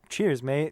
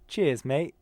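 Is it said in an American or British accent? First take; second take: American; British. First: It is said in an American accent. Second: It is said in a British accent.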